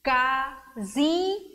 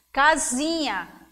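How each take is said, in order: First: "Casinha" slowly, each syllable on its own; three long beats with gaps in "Casinha". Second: Said in the usual way. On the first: Shown as a demonstration. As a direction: break "Casinha" into ca, zi, nha. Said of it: "três sílabas". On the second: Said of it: "Três vezes".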